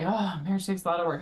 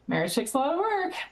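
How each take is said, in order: First: It is said in a weary, complaining tone. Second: It is said in a cheerful, smiling tone.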